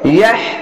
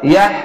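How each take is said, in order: First: The final h is breathy, air pushed from the throat. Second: The final h is weak, with little breath. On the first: The speaker calls it right. "এটি একটু গলাটা বাতাসটা বের হবে এইভাবে" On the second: The speaker calls it wrong. "অনেক সবাই ইয়াহ এইভাবে পড়লে ভুলে যাবে"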